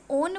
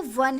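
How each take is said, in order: First: ओन starting on a long O vowel; spelling pronunciation. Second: वन starting with a W glide; W sound. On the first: Teacher showing how "one" is not said, ओन opening on O. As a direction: say ओन as spelt, with no W. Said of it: "ओन नहीं बोलेंगे". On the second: Teacher showing why "one" takes A, वन opening on W. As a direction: say वन with W before the vowel. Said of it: "डब्ल्यू की तरह sound कर रहा है". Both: Shown as a demonstration.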